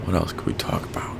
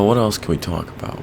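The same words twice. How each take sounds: First: Whisper. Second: Said in the usual way. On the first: Shown as a demonstration. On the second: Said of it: "repeated as whisper".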